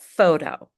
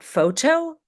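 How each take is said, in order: First: The T is said as a light D. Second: The T is said as a true T. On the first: The speaker calls it right. "this letter T is pronounced as a very light D" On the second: The speaker calls it wrong. "Not photo"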